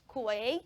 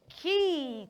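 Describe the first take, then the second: First: It begins with a kw sound, like 'kway'. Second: It sounds exactly like the word 'key'. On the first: The speaker calls it wrong. "the right pronunciation of that word is not kwe" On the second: The speaker calls it right. "it is key"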